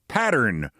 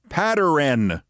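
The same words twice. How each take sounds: First: The word has its ordinary standard sounds. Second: The word's sounds are garbled and distorted. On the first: The speaker calls it right. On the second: The speaker calls it wrong.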